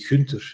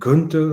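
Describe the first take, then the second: First: The name starts with a soft G sound. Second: The name starts with a hard G sound. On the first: This is how people in Flemish Belgium say it. "the Dutch-speaking part of Belgium where we say Gunther" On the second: This is how foreigners and Dutch speakers from the Netherlands say it. "they have problems with the soft G. So they always say Gunther"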